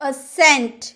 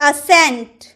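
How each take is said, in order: The two takes are said the same way.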